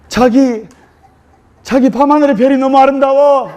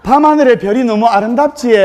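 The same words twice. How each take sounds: First: Seoul bride. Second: Gyeongsang wife saying '밤하늘의 별이 너무 아름답지' bluntly in dialect; blunt Gyeongsang take on the romantic line. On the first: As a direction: gush over the stars like a lovestruck bride. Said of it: "서울 신부가 서울 신랑에게". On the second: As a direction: Gyeongsang wife copying the Seoul bride's line flatly. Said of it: "경상도 신부가". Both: Retold or imitated.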